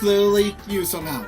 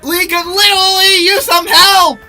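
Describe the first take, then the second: First: It is said quietly. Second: It is said loudly.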